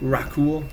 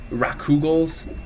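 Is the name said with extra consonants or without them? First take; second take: without; with. First: The name is said without the extra consonants. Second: The name is said with extra consonants added. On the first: The speaker calls it right. "something like that" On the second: The speaker calls it wrong. "I used to call them uh, Rakugals. Don't know why I added the extra consonants"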